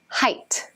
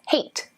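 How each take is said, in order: First: The vowel sounds like the word 'eye'. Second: The vowel sounds like the one in 'weight'. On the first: The speaker calls it right. "with a long I" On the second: The speaker calls it wrong. "as in freight or weight"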